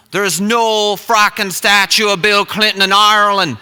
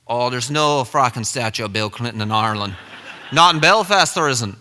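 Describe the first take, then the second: First: Louder, higher Irish denial; exasperated imitation of an Irishman; emphatic Irish accent. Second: Dismissive Irishman; imitated Irish scoffing; Irish accent. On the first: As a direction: insist loudly in a put-on Irish accent. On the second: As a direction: flatly contradict in a put-on Irish accent. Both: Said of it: "this accent".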